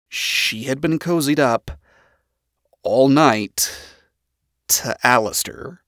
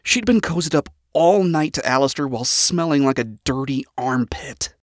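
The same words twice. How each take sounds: First: "She had been cozied up", "all night", "to Alistair" in separate chunks with long pauses; dawning mortification. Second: Said in the usual way. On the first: A narrator's reading. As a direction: break it up, landing hard on "all night". Dawning realization, repeated word by word.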